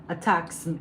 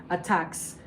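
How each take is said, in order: Both takes have the same delivery.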